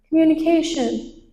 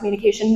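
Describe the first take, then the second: First: The word is said slowly and flatly. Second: The word is said very fast. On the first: Listeners find it boring. "that'd be so boring" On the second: Listeners cannot catch what is said. "I was speaking super fast about"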